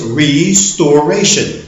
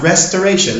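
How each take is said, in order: First: The first part sounds like the word restore. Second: The first part sounds like the word rest. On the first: The speaker calls it right. "The word is not to rest, it is to restore. So the word is restoration" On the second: The speaker calls it wrong. "Not restoration, like most Americans like to say"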